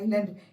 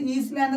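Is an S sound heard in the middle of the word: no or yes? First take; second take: no; yes. First: No S sound is pronounced in the middle. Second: An S sound is pronounced in the middle. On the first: The speaker calls it right. "An ഐലൻഡ്" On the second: The speaker calls it wrong. "ഇത് ഈസ്ലാൻഡ് എന്ന് വായിക്കരുത്"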